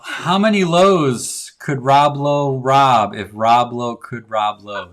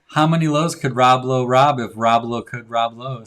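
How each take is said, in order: First: It is said at a normal pace. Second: It is said fast.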